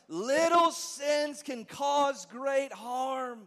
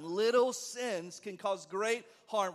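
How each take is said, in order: First: It is said loudly with high, forceful energy. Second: It is said at a calm, ordinary energy.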